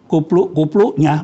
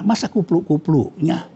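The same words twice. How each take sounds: First: Said in the usual way. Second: "masa kupluk-kupluknya?" with a rising, doubting tune; can't believe "kupluk-kupluknya" is right, ask it rising; incredulous question. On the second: Shown as a demonstration.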